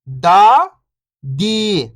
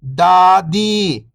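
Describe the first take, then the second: First: First syllable lifting, pause, second falling. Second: Whole word, level then falling at the end; syllables blended. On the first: Teacher breaking a word down for beginning readers, syllable by syllable. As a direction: sound out each syllable alone, long and separated. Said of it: "एक अक्षर का उच्चारण करके". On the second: Teacher showing beginners the joined word, syllables blended. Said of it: "तो मिलके बन जाएगा". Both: Shown as a demonstration.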